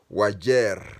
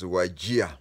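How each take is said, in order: First: The name ends with an 'er' sound. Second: The name ends with an 'ia' sound. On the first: This is how local Borana or Somali people say it. "if you get a Borana or a Msomali, he calls the town Wajer" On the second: This is how newcomers to the town said it. "but pronounced it as Wajia"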